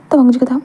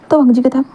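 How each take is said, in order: Both takes have the same delivery.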